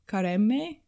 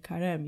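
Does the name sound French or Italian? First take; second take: Italian; French. First: The name sounds Italian, with the final vowel voiced. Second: The name sounds French, with the final vowel silent. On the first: The speaker calls it wrong. "No, that's Italian" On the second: The speaker calls it right. "you wouldn't pronounce that E"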